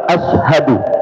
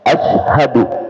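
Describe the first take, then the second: First: The vowels in the word are kept short. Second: The vowels in the word are kept short.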